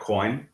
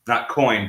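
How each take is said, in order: First: The word begins with a KW sound. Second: The word begins with a plain K sound. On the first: The speaker calls it right. "it might be pronounced uh, coin" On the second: The speaker calls it wrong.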